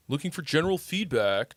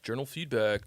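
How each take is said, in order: First: Austrian accent, German-Dutch flavour. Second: Said in the usual way. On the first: Shown as a demonstration. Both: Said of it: "You like my Austrian accent?".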